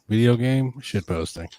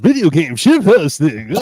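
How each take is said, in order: First: It is said in a flat, unenthusiastic way. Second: It is said in a lively, enthusiastic way. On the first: The speaker calls it wrong. "You didn't sound too enthusiastic" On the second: The speaker calls it right. "let's try it again"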